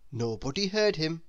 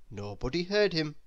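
Both takes have the same delivery.

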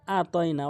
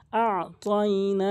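First: আ তয় না with a plain open আ, no throat sound; আ তয় না short and unrecited; missing ayn. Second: আ তয় না with the আ from mid-throat, then না drawn out; slow আ তয় না with Arabic ayn on আ. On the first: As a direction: say আ তয় না leaving out the Arabic ayn. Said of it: "আইনের উচ্চারণটি বাদ দেয়". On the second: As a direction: recite আ তয় না slowly with a pharyngeal first sound. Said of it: "হলকের মাঝখান থেকে". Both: Shown as a demonstration.

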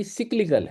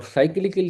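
First: "سائیکلیکل" as SIK-likal; short "sik" opening in "سائیکلیکل"; English pronunciation. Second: First "سائیکلیکل" as SAI-klikal; long "sai" opening in "سائیکلیکل"; Urdu-style pronunciation. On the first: Teacher gives the real form, "سائیکلیکل" as SIK-likal. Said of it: "وہاں اصل جو pronunciation ہے". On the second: Teacher shows the expected but wrong form, "سائیکلیکل" as SAI-klikal. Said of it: "سائیکلیکل انگریزی pronunciation میں نہیں بنتا". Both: Shown as a demonstration.

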